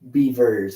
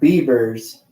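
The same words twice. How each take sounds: First: The middle consonant is a clear V sound. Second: The middle consonant is not a clear V. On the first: The speaker calls it right. "Beavers with a V" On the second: The speaker calls it wrong. "not Beavers"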